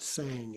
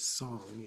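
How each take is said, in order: First: The vowel sounds like the one in cat. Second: The vowel sounds like the one in song. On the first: The speaker calls it wrong. "but it's not sang" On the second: The speaker calls it right. "it's song in Tibetan pronunciation"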